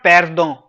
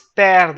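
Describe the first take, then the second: First: The word ends with a nasal vowel sound. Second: The word ends with a d sound. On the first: The speaker calls it wrong. "It's not perdon" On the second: The speaker calls it right. "It's perd"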